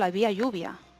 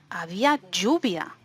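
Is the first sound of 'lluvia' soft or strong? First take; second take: soft; strong. First: Lluvia starts with a soft, relaxed consonant. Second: Lluvia starts with a strong, emphatic consonant. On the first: The speaker is just stating that it rained. "no enfatizo" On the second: The speaker is emphasizing that it was rain. "porque estoy enfatizando"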